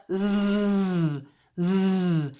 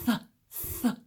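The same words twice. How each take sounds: First: A bare "th" buzzed with the voice, slowly; voiced th. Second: A bare "th" with air only, no voice; voiceless th. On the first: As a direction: hum the "th" so the throat vibrates. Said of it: "the voiced T H". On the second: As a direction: hiss the "th" through the teeth without voice. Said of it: "voiceless T H". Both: Shown as a demonstration.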